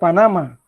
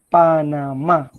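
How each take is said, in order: First: The stress falls before the last syllable. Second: The stress falls on the last syllable. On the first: The speaker calls it wrong. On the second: The speaker calls it right.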